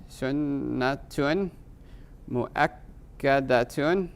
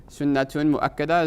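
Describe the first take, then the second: First: Sunnatun mu'akkadatun drawn out slowly, every ending voiced; slow full case endings. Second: Said in the usual way. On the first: Shown as a demonstration. Teacher to class, slow careful full case endings. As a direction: spell out Sunnatun mu'akkadatun syllable by syllable. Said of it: "Sunnatun mu'akkada is a descriptive phrase".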